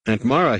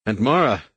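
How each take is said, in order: First: Sudden pained gasp of her name, louder; a jolt of pain hits him as he calls her. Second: Pained cry of her name, a little louder; second wave of fear, crying out for her; gasped cry. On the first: Anakin gasps for his aunt in sudden pain. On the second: Anakin cries out again for his aunt, pained. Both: A narrator's reading. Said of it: "he gasped".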